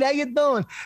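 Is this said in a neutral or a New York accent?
New York. It is said in a New York accent.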